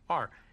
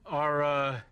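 First: The word is said plainly and clipped. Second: The word is drawn out in a mocking voice. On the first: This is how the speaker's own group says it. The speaker calls it right. "Pure Aryan like you or I would pronounce it correctly" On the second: This is how the speaker claims another group says it. The speaker calls it wrong. "Negro pronounces it Ara"

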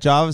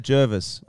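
First: The first syllable sounds like 'jar'. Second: The first syllable sounds like 'jer'. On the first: Other people say it this way. "some say Jarvis" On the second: The speaker says it this way. "I say Jervis"

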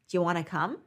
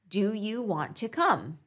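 First: The words are reduced and run together. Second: Every word is said fully and separately. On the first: "Repeat it as" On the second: "listen to"

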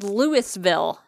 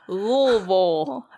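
First: The name ends with a clear 'vill' syllable. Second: The name ends with a reduced 'vul' syllable. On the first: The speaker calls it wrong. "It's Louisville. ... It's literally spelled" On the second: The speaker calls it right. "There you go"

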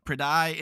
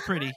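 First: The name is said unlike the word 'pretty'. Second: The name is said just like 'pretty'. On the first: The speaker calls it wrong. "they'd pronounce it a different way" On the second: The speaker calls it right. "No, it's Pretty"

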